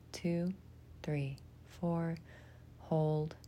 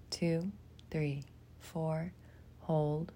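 No difference in how they are said.

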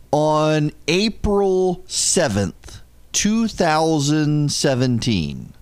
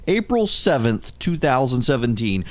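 First: Slow, spaced-out reading of "April seventh, two thousand seventeen"; measured, emphatic slow reading of the date; slow deliberate date. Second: Said in the usual way. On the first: Shown as a demonstration. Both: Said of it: "repeats the release date deliberately".

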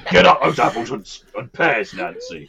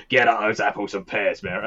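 First: Laughing mock-threatening Cockney thug, higher and louder; hammed-up villain growling the line through a laugh; Bill Sikes menace. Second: Lightly put-on stagey Cockney accent; a cheery mock Cockney line, barely pushed. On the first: Reworking the quote as Oliver's villain, mock threatening. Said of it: "that's more, uh, Bill Sikes in, uh, Oliver". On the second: Quoting Mary Poppins to friends, mild mock Cockney.

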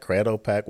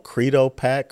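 First: First syllable of Credo rhymes with shade; "Craydo" pronunciation of Credo. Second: First syllable of Credo rhymes with seed; "Creedo" pronunciation of Credo. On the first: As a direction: say Credo with an ay vowel. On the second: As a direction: say Credo with an ee vowel. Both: Real, not acted.

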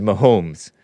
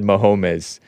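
First: "Mahomes" in two syllables, ma-HOMES; "Mahomes" with a silent e; other man's pronunciation. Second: "Mahomes" in three syllables, ma-HO-miz; "Mahomes" as ma-HO-mis; disputed pronunciation. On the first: Retold or imitated. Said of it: "He said Mahomes". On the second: Shown as a demonstration. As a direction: give "Mahomes" an extra final syllable. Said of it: "I never said Mahomes".

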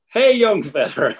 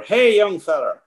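First: Slow, high, stretched hail; drawn-out mock call. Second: High, ringing call across the river; mock shout from afar. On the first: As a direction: stretch the call out slowly, rancher-style. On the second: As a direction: call out like a rancher hailing someone. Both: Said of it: "he starts shouting".

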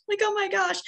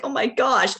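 First: High, teary laugh-cry on oh my gosh. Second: Said in the usual way. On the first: Retold or imitated. [name] retelling opening the gift, teary laugh-cry. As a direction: let the voice crack into tears. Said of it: "And I'm crying". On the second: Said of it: "I was just like".

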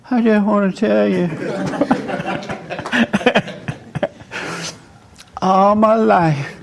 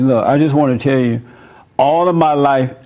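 First: Timid and shaky. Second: Firm, steady telling of the words; strong and firm. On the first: Retold or imitated. A son afraid to confront his mother, higher and timid. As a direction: squeak it out, scared to say it. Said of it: "but I wasn't this strong". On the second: Shown as a demonstration. Retelling his talk with mother, firm and steady. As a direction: say it straight out, with confidence. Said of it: "I sound a little stronger now about it".

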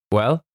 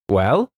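First: Higher, probing "Well?"; colonel's probing "Well?"; curt question. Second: Louder defiant retort; defiant echo of the colonel. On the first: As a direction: ask "Well?" like a stern challenge. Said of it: "said Colonel Carteret". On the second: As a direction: throw the word back defiantly. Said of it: "said James defiantly". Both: Acted.

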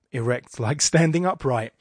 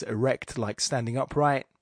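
First: Erect like standing upright said louder, leaning on standing; double entendre. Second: Said in the usual way. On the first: Shown as a demonstration. Teasing the class with the line's innuendo, suggestive stress. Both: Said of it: "the full double entendre energy".

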